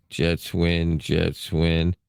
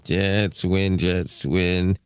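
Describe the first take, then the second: No difference in how they are said.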